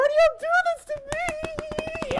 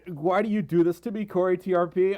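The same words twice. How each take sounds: First: Very high shrieked question; shocked shriek. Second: Said in the usual way. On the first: Real, not acted. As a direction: screech it in disbelief. Shocked by big donation.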